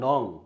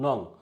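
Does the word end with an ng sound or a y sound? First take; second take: ng sound; ng sound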